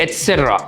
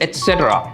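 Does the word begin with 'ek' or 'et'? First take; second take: et; et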